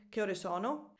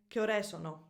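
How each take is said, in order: First: Said in the usual way. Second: "Che ore sono" with stress moved off its usual place onto "ore", falling end; misplaced stress in "Che ore sono"; wrong question music. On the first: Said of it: "instead of saying". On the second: Shown as a demonstration. Teacher imitates odd-sounding Italian question, wrong stress. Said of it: "the music of the question is completely off".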